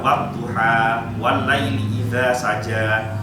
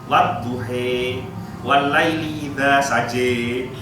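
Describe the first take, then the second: First: The final vowels are pronounced as an open 'a'. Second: The final vowels are pronounced as an 'e'. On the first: This is the usual local reading. "kita baca" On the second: This is the reading used in Morocco. "Di Maroko itu bacanya bukan wadduha"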